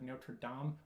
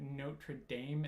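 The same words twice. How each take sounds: First: It is said with a French pronunciation. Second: It is said with an American English pronunciation. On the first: This is how listeners say it should be said. "that's the French speaking" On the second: This is how the speakers actually said it. "we said Notre Dame"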